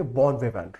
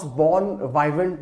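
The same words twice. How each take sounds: First: "बॉन विवेंट" with a short वि like "vee"; correct pronunciation. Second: "बॉन वाइवेंट" with वाइ like "vye"; wrong pronunciation. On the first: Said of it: "How you would pronounce". ("बॉन विवेंट" में छोटा "वि", सही उच्चारण) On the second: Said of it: "इसको आप pronounce बॉन वाइवेंट नहीं करेंगे". ("बॉन वाइवेंट" में वाइ को लंबा "वाइ" बोलें, गलत उच्चारण) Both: Shown as a demonstration.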